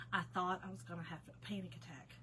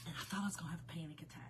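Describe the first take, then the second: First: Said in the usual way. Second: Fast breathless whisper. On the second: Real, not acted. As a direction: hush it out quickly like a secret confession. Retelling panic at night.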